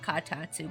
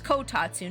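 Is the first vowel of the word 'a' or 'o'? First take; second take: a; o. First: The first syllable has an 'a' vowel. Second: The first syllable has an 'o' vowel. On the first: The speaker calls it wrong. "not katatsu" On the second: The speaker calls it right. "it's kotatsu"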